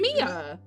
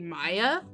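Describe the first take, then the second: First: The name is said like Mia. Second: The name is said like Maya. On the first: The speaker calls it right. "but it's Mia" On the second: The speaker calls it wrong. "I heard people online pronouncing it Maya"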